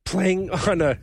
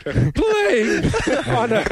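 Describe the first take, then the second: First: Real crack of a sick voice; voice giving out. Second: Very high, loud squeaky break; cracking pubescent voice. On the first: Sick podcaster struggling through a joke, voice giving out. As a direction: voice slipping upward from being sick. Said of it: "sorry, I'm losing my voice". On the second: Sick podcaster retrying his line amid laughter, voice cracking high. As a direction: voice shoots up and cracks. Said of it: "puberty this week". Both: Real, not acted.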